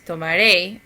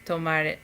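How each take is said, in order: First: The stress falls on the last syllable. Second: The stress falls before the last syllable. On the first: The speaker calls it right. "you've got to say it with the accent on the very last syllable" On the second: The speaker calls it wrong. "instead of"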